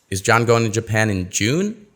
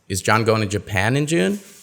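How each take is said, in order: First: The word June is stressed. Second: The word Japan is stressed. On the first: The asker wants to know when he is going. "No, he's going in July" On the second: The asker wants to know where he is going. "No, he's going to Taiwan"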